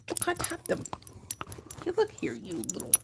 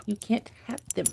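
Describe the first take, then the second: First: Much higher, softer pet voice. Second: Said in the usual way. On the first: Real, not acted. Owner squeaks at the dog chewing her fingers. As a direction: squeak it at the puppy.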